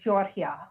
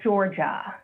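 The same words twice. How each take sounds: First: The name is said with a foreign pronunciation. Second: The name is said with an American pronunciation. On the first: This is how an immigrant parent says the name. "as my mother would pronounce it" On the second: This is the usual local way of saying the name. "It's not Georgia"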